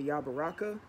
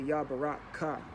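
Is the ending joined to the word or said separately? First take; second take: joined; separate. First: The ending is joined onto the word. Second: The ending is said as a separate syllable. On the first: "you can either say Yabaraka" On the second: "It's separately like that"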